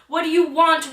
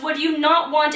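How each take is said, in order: First: "you" pressed, falling end; "you" carries the question; stress on you. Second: "not" pressed, falling end; "not" pushed hard; stress on not. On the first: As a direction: lean on "you". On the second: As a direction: hit the word "not". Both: Shown as a demonstration.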